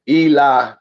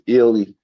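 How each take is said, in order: First: The name begins with a long 'ee' sound. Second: The name begins with a short 'ih' sound. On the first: The speaker calls it wrong. "A lot of people pronounce it e e Eli" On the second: The speaker calls it right. "but it's pronounced illy"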